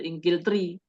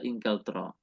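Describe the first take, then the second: First: The word ends with an 'i' vowel. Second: The word ends with an 'a' vowel. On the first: The speaker calls it wrong. "tidak berubah menjadi Ingkiltri" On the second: The speaker calls it right. "tetap dibaca Inglaterra"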